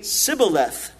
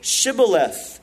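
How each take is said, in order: First: The word begins with an 's' sound. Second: The word begins with an 'sh' sound. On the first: The speaker calls it wrong. "They couldn't pronounce that SH sound. So they would say Sibboleth" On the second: The speaker calls it right. "Then say Shibboleth"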